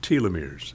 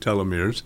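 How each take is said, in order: First: The first syllable sounds like 'tee'. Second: The first syllable sounds like 'tel'. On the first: "other people who work with the telomeres actually call them telomeres" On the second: "Several people call it telomeres"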